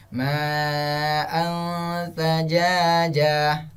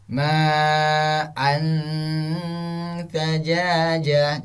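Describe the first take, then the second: First: Slow "ma'an sajajah" with n veiled in a hum; drawn-out chant, hidden n in "ma'an"; correct ikhfa recitation. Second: Slow "Ma'an sajajah" with a distinct n; chanted with unhidden n in "Ma'an"; wrong clear-n recitation. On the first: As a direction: blur and hold the n of "ma'an". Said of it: "Jangan seperti itu, tapi". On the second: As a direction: press the tongue on the n of "Ma'an". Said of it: "Jangan antum baca seperti ini". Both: Shown as a demonstration.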